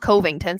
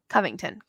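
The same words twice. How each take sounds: First: The first syllable sounds like COVID. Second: The first syllable does not sound like COVID. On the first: The speaker calls it wrong. "not Covington. Sounds too much like COVID" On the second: The speaker calls it right.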